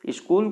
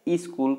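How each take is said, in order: First: The word begins directly with the consonant cluster. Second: An extra vowel is added before the cluster.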